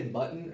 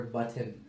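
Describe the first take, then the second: First: Said in the usual way. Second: "button" with a swallowed T; lazy Utah "button", middle dropped; Utah pronunciation. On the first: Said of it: "do you say button or button?". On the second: Shown as a demonstration. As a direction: say "button" as "buh'n", glottal stop for the T. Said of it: "you got the Utah".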